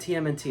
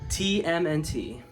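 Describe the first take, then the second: First: The letters are said in a plain, ordinary way. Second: The letters are said in an odd, unusual way. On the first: The speaker calls it right. "I should have just said it like that" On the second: The speaker calls it wrong. "I don't know why I said it weirdly like that"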